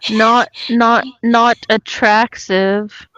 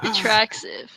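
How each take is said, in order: First: Not punched, slow; stress on not. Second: Attractive rising, questioning; attractive with rising tune. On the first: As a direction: hit the word not. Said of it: "correcting the word". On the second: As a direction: Attractive asked, rising at the end. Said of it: "echoing the word". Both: Real, not acted.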